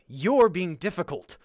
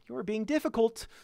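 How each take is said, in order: First: It sounds openly frustrated and mean. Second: It sounds passive-aggressive, with veiled annoyance. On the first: The speaker is annoyed with the listener. "it should be like, ... a mean sort of like, I'm frustrated with you thing to say" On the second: The annoyance is hidden behind politeness. "Or passive aggressive"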